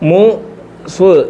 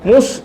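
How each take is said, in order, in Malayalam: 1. ശബ്ദങ്ങൾ വേറെ വേറെ, ഒന്നൊന്നായി പറയുന്നു. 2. ശബ്ദങ്ങൾ ചേർത്ത്, വേഗത്തിൽ പറയുന്നു.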